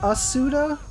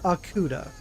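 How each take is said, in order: First: The middle consonant is an S sound. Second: The middle consonant is a K sound. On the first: "like an S sound" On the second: "or a K sound"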